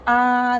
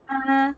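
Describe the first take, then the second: First: The vowel is a plain, open ah. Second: The vowel is a flat, cute ah. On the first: The speaker calls it wrong. "they don't say ah" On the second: The speaker calls it right. "they say ah, like it's very I don't know, it's very flat"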